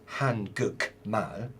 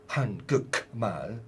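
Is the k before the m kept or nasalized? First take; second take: kept; kept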